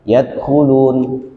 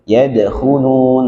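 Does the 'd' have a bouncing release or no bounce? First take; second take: no bounce; bouncing. First: The 'd' is released without any bounce. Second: The 'd' is released with a bouncing echo. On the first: The speaker calls it wrong. "tidak ada pantulan ya" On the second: The speaker calls it right. "nah ini harus qalqalah, memantul"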